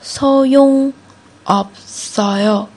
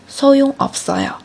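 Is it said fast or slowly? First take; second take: slowly; fast. First: It is said at a slower pace. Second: It is said at a faster pace.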